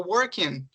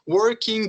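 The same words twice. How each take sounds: First: The word ends with an n sound, no g. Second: The word ends with an audible g sound. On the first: The speaker calls it right. "Vai terminar nesse sonzinho do N" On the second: The speaker calls it wrong. "não vai ficar assim, ó"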